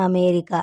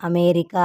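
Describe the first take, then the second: The two takes are said the same way.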